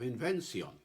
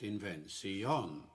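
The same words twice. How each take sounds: First: The word carries a single stress. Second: The word carries two stresses, with an extra syllable. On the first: "with just one stress on the last word" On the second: "with a five-beat line really does suggest"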